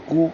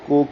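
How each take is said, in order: First: کو as a clear "koo"; maroof u vowel. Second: کو as an open "ko"; wrong majhool o. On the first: Teacher showing the correct vowel, کو said as "koo". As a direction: round کو fully to "koo", not "ko". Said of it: "کو کاف کو کو نہیں پڑھیں گے". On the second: Teacher showing the mistake, کو said as "ko". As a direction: say کو as "ko" instead of "koo". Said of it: "کو نہیں پڑھیں گے". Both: Shown as a demonstration.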